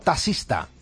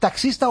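First: The middle sound is said as a plain s. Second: The middle sound is said as ks. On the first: "¿Con X o con S?" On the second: "¿Con X o con S?"

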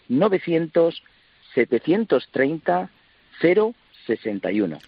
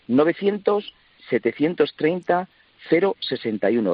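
First: The number is said slowly. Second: The number is said at normal speed.

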